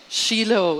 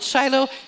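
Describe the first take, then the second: First: The name is said with a Hebrew pronunciation. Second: The name is said with an English pronunciation. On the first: "It's the Hebrew pronunciation" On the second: "But some of us call it Shiloh"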